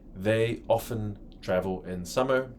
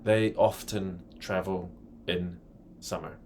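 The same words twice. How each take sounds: First: The t in 'often' is silent. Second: The t in 'often' is pronounced. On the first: "En inglés americano se pronuncia often, sin pronunciar el T" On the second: "en el inglés británico pueden pronunciar la T"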